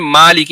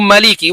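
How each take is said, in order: First: The first vowel is stretched long. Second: The first vowel is short, not stretched. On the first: "हम मा साउंड को जो है स्ट्रेच करते हैं" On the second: "उस माँ के साउंड को स्ट्रेच नहीं करेंगे"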